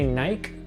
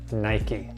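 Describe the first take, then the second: First: The name is pronounced the British way. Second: The name is pronounced the American way. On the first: "in the U K they might say Nike" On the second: "in the United States, where the company's from, we call it Nike"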